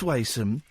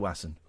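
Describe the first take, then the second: First: The first vowel rhymes with 'may'. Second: The first vowel rhymes with 'mass'. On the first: The speaker calls it right. "it's Mason with a W" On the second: The speaker calls it wrong. "Don't say Wasson"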